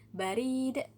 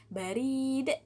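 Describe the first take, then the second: First: The vowel is said long. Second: The vowel is said long.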